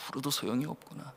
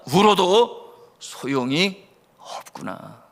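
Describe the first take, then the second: First: Very soft, quicker murmur to oneself; resigned self-talk. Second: Slowly voiced realisation, drawn out; mild dawning resignation. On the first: Retold or imitated. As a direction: give up quietly, almost under your breath. Orphan's realisation repeated to self. (혼잣말처럼 아주 작게 체념하는 말투) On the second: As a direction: let it sink in slowly, lightly acted. Orphan's realisation acted, first take. (천천히 깨닫는 듯한 가벼운 체념)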